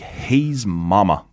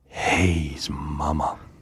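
First: It is said in a plain, normal voice. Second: It is said in a sultry voice.

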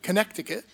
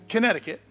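First: It is said the local way, every letter sounded. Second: It is said the usual outsider way.

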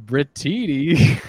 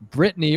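First: The name is said in an altered, imitated way. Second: The name is said the ordinary way.

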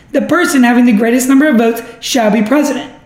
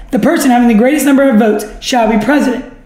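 No difference in how they are said.

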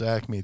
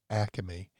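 First: It is said in a standard American accent. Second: It is said in a South Philly accent.

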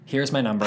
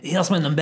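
First: It is said in the speaker's own plain accent. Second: It is said in a put-on French accent. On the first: "Just imagine, because I can't" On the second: "for anyone who doesn't want to imagine"

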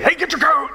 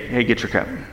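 First: It is said in an urgent, hurried way. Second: It is said in a calm, relaxed way.

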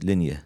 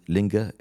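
First: The middle consonant is a y sound. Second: The middle consonant is a hard g sound. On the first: This is the Arabic form of the name. "He said Linya, the way we pronounce it" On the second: This is the local Persian form of the name. "they call it Linga in Persian"

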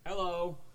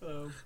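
First: It is said loudly. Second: It is said quietly.

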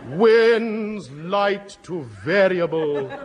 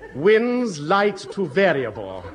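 First: It is said as if announcing a catastrophe. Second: It is said cheerfully, with a smile.

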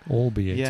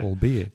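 First: The stress is on the first syllable. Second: The stress is on the middle syllable. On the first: The speaker calls it wrong. "Maybe putting the stress at the beginning" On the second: The speaker calls it right. "With the emphasis in the B in the middle"

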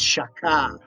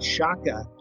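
First: The final syllable is strongly emphasized. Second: The final syllable is not strongly emphasized. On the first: The speaker calls it right. "You have to ka. Emphasize shaka" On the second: The speaker calls it wrong. "It's not shaka"

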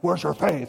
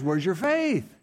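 First: It is said in a harsh, critical tone. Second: It is said in a warm, encouraging tone.

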